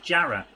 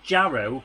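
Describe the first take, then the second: First: The name ends in an 'ah' sound. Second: The name ends in an 'oh' sound. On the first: This is how local people say the name. "everyone calls it Jarrah. Because O W in a northeastern accent is an at sound" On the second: This is how the name is written. "It's spelled Jarrow"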